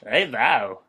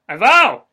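First: He says it plainly in his own voice. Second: He mimics the other man's emphatic delivery. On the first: This is how he would say it himself. The speaker calls it right. "That's how I would say it" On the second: He is copying the other man's way of saying it. The speaker calls it wrong. "Don't make fun of me!"

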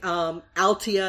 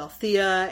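First: The middle consonant is a plain t sound. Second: The middle consonant is a th sound. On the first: The name is being mispronounced. The speaker calls it wrong. "she mispronounces everything" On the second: The name is said the standard way. The speaker calls it right. "as opposed to Althea"

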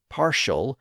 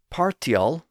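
First: The middle consonant is an SH sound. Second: The middle consonant is a plain T sound. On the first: This is the modern pronunciation. "with its modern SH sound" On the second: This is the older pronunciation. "with its T sound"

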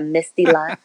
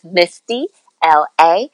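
First: The ending is said as one syllable, la. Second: The ending is said as two letter names. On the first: The speaker calls it wrong. "Some people mispronounce it and say" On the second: The speaker calls it right. "but it's Misty LA"

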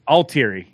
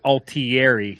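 First: The name is pronounced in an American way. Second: The name is pronounced in an Italian way. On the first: This is how the family itself says the name. "And the correct pronunciation is Altieri" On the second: This is how the name is said on a television show. "there was actually an Altieri, but they pronounce it Altieri"

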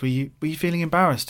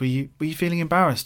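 First: The question sounds curious and warm. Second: The same.

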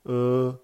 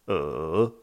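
First: It is said with the first tone. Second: It is said with the third tone.

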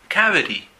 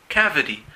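No difference in how they are said.

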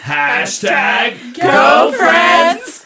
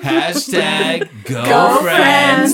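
First: It is said at a louder level. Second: It is said at the quietest level.

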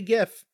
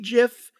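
First: The word starts with a hard g sound. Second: The word starts with a soft j sound. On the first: The speaker calls it right. "that's correct though ... So it's a guh sound" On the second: The speaker calls it wrong. "but they're wrong"

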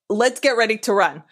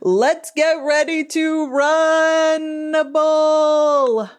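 First: It is said in a normal speaking voice. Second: It is said like a boxing announcer.

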